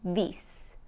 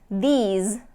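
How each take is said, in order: First: The final consonant is a hissing voiceless S. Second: The final consonant is a buzzing voiced Z. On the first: The speaker calls it wrong. "I'm hearing this" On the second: The speaker calls it right. "instead of saying these"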